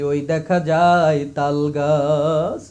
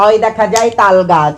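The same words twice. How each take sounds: First: It is said in a weeping preacher's voice. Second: It imitates how third-gender people might recite.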